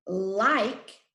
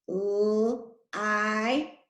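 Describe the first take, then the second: First: Said in the usual way. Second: "L-I-K" as three separate sounds, held l; sounded out. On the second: Shown as a demonstration. Teacher helping pupils spell like, "L-I-K" sounded out. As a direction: pull "L-I-K" apart sound by sound.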